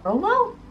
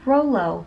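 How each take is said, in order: First: Rolo? pitched way up, questioning; Rolo? rising sharply in disbelief; surprised question. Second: Said in the usual way. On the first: Real, not acted.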